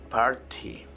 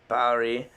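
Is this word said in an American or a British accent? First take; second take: British; American. First: It is said in a British accent. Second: It is said in an American accent. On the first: "British people say" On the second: "American people say"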